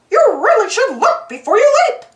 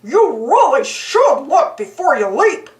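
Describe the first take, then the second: First: High, light cartoon mouse voice; Mickey voice. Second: Lightly voiced goofy dog. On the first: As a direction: speak as a bright cheerful mouse. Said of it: "Mickey said to the frog". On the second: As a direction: say it like a dopey good-natured dog. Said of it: "Goofy said to the frog". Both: A narrator's reading.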